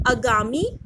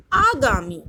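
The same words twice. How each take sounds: First: आगामी said with short first vowel; आगामी with short a at the start, like agami; wrong spelling said. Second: आगामी said with long first aa; आगामी with a clear long aa at the start; correct spelling said. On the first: (आगामी पहला स्वर छोटा, अगामी जैसा) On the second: (आगामी पहला स्वर लंबा आ) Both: Shown as a demonstration. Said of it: "कुछ अशुद्ध शब्द हैं और कुछ शुद्ध शब्द हैं".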